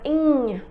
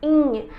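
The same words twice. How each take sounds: First: It has an 'ny' sound as in mignon. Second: It has an 'ny' sound as in mignon.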